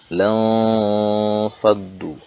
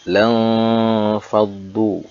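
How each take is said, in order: Both takes have the same delivery.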